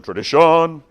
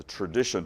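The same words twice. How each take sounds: First: Loud, high theatrical cry of "tradition"; big showy exclamation, pitched up; Fiddler on the Roof quote. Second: Said in the usual way. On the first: Acted. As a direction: proclaim it like a stage musical number. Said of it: "if you've seen Fiddler on the Roof".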